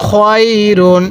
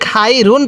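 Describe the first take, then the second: First: খয়রুন with a rounded "khoy" joined to রুন; খয়রুন as "khoyrun", not "khairun"; correct pronunciation. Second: খাই রুন with an open "khai" split from রুন; খাই রুন mispronounced as "khai run"; wrong pronunciation. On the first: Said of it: "তাহলে খ ইয়া জবর খয়". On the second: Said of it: "অনেকেই খাই রুন পড়ি". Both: Shown as a demonstration.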